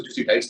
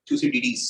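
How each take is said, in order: First: थ्यूसिडाइड्स said thyoo-si-dides, ending in -dides as in English; Thucydides as "thu-si-daids". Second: थ्यूसिडिडीज said thyoo-si-di-deez, ending in -deez; Thucydides as "thu-si-di-dees". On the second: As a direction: say थ्यूसिडिडीज with four syllables, -di-deez at the end. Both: Shown as a demonstration. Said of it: "कुछ लोग उसको थ्यूसिडाइड्स भी पढ़ते हैं".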